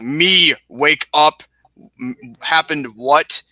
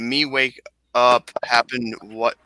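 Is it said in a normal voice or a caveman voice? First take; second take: caveman; normal. First: It is said in a put-on caveman voice. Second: It is said in his normal voice.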